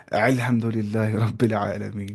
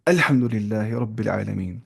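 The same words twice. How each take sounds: First: الحمدللہ read slowly with the alif of الحمدللہ pushed from the throat like an ain; wrong throaty alif. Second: الحمدللہ with a light open alif from the mouth, no throat; correct clear alif. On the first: Tajweed teacher mocking an over-throaty reading, alif in الحمدللہ said as ain. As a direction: exaggerate the guttural ain sound at the start of الحمدللہ, slow and heavy. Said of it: "کوئی پڑھتا ہے الف کو عین".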